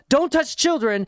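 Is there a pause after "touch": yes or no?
no. There is no pause after "touch".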